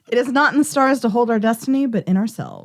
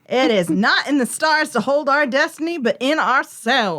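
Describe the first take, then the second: First: It is read in a plain, neutral accent. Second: It is read in a country accent.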